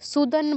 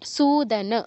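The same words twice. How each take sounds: First: The first vowel 'u' is short. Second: The first vowel 'u' is long. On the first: The speaker calls it wrong. "সুদন বলা যাবে না" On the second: The speaker calls it right. "সুদন পুরোটা বলতে হবে"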